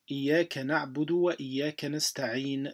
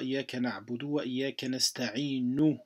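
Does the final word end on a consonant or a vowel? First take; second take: consonant; vowel. First: The last word ends on a bare consonant. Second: The last word ends with a short 'u' vowel. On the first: The speaker calls it right. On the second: The speaker calls it wrong. "Vous dites pas"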